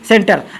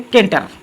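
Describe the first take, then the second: First: The word begins with an s sound. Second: The word begins with a k sound. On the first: The speaker calls it right. "इसको पढ़ेंगे सेंटर" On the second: The speaker calls it wrong. "नहीं पढ़ेंगे केंटर।"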